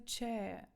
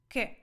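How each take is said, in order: First: The word begins with a ch sound. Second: The word begins with a k sound. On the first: The speaker calls it wrong. "не читаємо це в жодному разі че" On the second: The speaker calls it right. "Італійською це читається як che"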